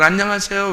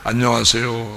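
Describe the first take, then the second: First: It is said in a put-on woman's voice. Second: It is said in a put-on man's voice.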